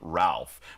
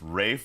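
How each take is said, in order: First: The name is said with an L sound. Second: The name is said without an L sound. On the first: This is how locals would say it. The speaker calls it wrong. "we might pronounce his name Ralph" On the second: This is the British way to say it. The speaker calls it right. "it's actually a British pronunciation"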